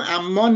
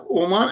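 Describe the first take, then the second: First: "عمان" with opening a and doubled m; Ammân, the rejected pronunciation. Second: "عمان" with an opening o and a single m; Omân, correct pronunciation. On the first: Panelist showing the wrong name for the country, "عمان" as Ammân. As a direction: say "عمان" as am-MÂN, holding the m. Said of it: "عمان نیست، تلفظ دولت". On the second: Panelist correcting how the country is pronounced, "عمان" as Omân. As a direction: say "عمان" as o-MÂN, no doubled m. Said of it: "چند جمله بگم در مورد تلفظ". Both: Shown as a demonstration.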